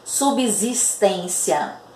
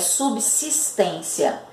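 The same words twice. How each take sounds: First: The 'bs' is voiced, sounding like 'bz'. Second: The 'bs' is voiceless, sounding like 'ps'. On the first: The speaker calls it wrong. "Vocês vão ouvir muito as pessoas falarem" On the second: The speaker calls it right. "a pronúncia correta dessa palavra é"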